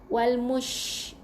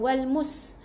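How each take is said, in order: First: The consonant after mu is an sh. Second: The consonant after mu is a plain s. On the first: The speaker calls it right. "huruf shin bukan huruf s" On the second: The speaker calls it wrong. "bukan wal mus"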